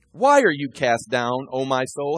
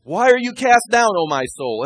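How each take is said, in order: First: Slow reading. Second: Loud, high self-exhortation, pushing the words out; talking to himself. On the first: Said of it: "He's talking to himself". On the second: Preacher speaking to his own soul, raised and loud. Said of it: "I have biblical scripture here for talking to myself". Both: Acted.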